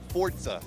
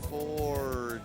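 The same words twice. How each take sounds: First: It is said at ordinary speed and volume. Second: It is said slowly and drawn out. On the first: "say it again" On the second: "Say it slower"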